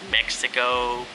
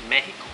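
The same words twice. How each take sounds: First: The x is said as ks. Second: The x is not said as ks. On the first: The speaker calls it wrong. "I thought you pronounce it with the X" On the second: The speaker calls it right. "they have to say it's Mexico"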